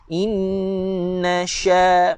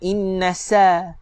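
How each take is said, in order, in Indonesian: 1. Konsonan itu dibaca seperti bunyi 'sh'. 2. Konsonan itu dibaca seperti bunyi 's'. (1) "Sepatutnya tuan-tuan baca dengan huruf shin" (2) "jangan inna sa"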